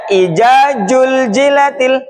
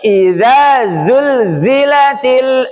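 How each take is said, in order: First: The z sounds are said like j. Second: The z sounds are said as clear z. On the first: The speaker calls it wrong. "Ada yang baca ija juljilatil" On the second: The speaker calls it right. "Bukan ijajul, tapi idza zulzilatil"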